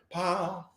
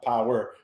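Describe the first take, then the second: First: "Power" as one syllable, pow, pitched up. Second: Said in the usual way. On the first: Shown as a demonstration. Man correcting the host, "Power" shortened to pow. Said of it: "P O W apostrophe R". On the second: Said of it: "Not power".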